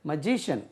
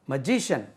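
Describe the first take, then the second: No difference in how they are said.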